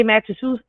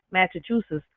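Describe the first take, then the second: First: "Massachusetts" rushed and slurred as "Matchatoos", tail swallowed; botched Massachusetts. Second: "Massachusetts" said again much softer, every syllable through to the end; careful retry. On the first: Bragging to chat, then garbling "Massachusetts". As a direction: trip over "Massachusetts", quick and cocky. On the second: Fixing the flub for chat, a soft careful "Massachusetts". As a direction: quietly redo "Massachusetts" in full. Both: Shown as a demonstration. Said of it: "Oh, I fucked it up right there".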